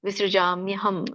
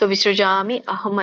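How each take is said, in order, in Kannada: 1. ಪದಗಳು ಕೂಡುತ್ತವೆ, i ಎಂಬುದು y ಆಗುತ್ತದೆ. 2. ಈ ಎರಡು ಪದಗಳನ್ನು ಬೇರೆ ಬೇರೆಯಾಗಿ ಹೇಳ್ತಾರೆ, ಕೂಡಿಸಲ್ಲ.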